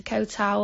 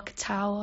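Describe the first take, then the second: First: TAO said as one syllable like "tow" rhyming with cow; first try at Koh Tao, TAO as "tow"; trying a pronunciation. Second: TAO drawn out with a loose "uh" ending; second try at Koh Tao, TAO as "tow-uh"; alternative pronunciation. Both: Shown as a demonstration. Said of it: "however you say it".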